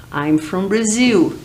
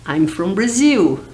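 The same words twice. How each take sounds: The two takes are said the same way.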